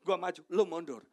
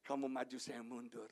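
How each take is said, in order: First: Loud, pushy egoist; egotistical. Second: Low, yielding voice, softening at the end; unselfish. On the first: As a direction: shove others aside with the voice, loudly. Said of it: "Itu gaya berenang orang egois". (gaya orang egois, lantang mendesak) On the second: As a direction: step back modestly and let others go first. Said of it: "nggak egois". (mengalah, rendah dan lembut di akhir) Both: Acted.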